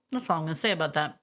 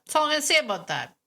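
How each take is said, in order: First: Said in the usual way. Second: Playful higher repeat. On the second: Shown as a demonstration. Host jokingly closing the topic, higher and playful. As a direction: repeat it up high, teasingly.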